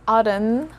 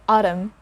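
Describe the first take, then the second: First: The word ends with an N sound. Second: The word ends with an M sound. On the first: The speaker calls it wrong. "So it's not autumn" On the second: The speaker calls it right. "We stop there. We don't pronounce or we don't sound the letter N here"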